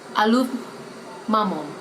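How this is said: It is said in a northern British accent. "The northern people will say"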